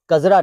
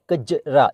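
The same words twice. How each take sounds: First: कजरा said with a z, shown as wrong; teacher voices the mistaken कजरा; z sound. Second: कजरा with a plain j; teacher gives the correct कजरा; j sound. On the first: To learners, the wrong z in कजरा. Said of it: "कजरा नहीं". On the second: To learners, the correct j in कजरा. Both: Shown as a demonstration.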